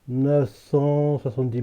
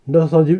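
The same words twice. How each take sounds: First: The number is said slowly and more clearly. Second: The number is said quickly and comes out garbled. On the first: The speaker calls it right. "Faut que je dise lentement" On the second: The speaker calls it wrong. "quand j'essaie de le dire rapidement, ça sort mal"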